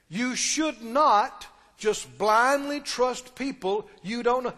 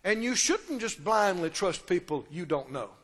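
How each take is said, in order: First: It is said very slowly. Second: It is said at normal speed.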